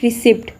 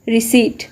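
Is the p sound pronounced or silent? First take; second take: pronounced; silent. First: The p sound is pronounced. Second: The p sound is silent. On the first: The speaker calls it wrong. "It's not रिसिप्ट" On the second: The speaker calls it right. "इस word के अंदर पी silent होता है"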